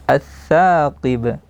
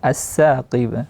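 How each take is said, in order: First: The consonant is a 'th' with the tongue tip on the teeth. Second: The consonant is an 's' made behind the teeth. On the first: The speaker calls it right. "tsa makhrajnya ujung lidah berjumpa dengan ujung gigi seri atas" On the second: The speaker calls it wrong. "jadi tidak as-saqib"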